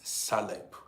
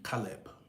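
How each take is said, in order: First: The name begins with an S sound. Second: The name begins with a K sound. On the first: The speaker calls it wrong. "sometimes I mispronounce this your this your name. I call it sometimes Saleb" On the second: The speaker calls it right. "the right pro pronunciation should be Caleb"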